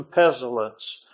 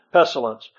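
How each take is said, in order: First: "pestilence" run together as pel-ence, the s and t dropped; slurred word. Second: "pestilence" redone clearly as pes-ti-lence with the s sounded; careful correction. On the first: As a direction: stumble through "pestilence". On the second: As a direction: fix the word "pestilence" deliberately. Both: Real, not acted.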